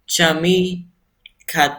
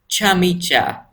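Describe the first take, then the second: First: The c is not said like English j. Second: The c is said like English j. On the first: The speaker calls it wrong. "Most people say it as" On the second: The speaker calls it right. "the C in Turkish is pronounced as J in English"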